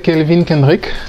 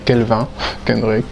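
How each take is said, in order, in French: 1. Le nom se prononce avec des sons anglais. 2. Le nom se prononce avec des sons français. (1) "en anglais, c'est" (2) "en français euh"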